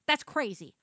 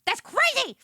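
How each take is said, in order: First: Said in the usual way. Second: That's crazy squeaked high and loud. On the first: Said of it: "repeats crazy, last one pitched up". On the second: Real, not acted. Repeating the phrase, squealing That's crazy high and loud.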